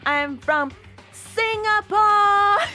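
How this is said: It is said in a put-on, showy pageant voice.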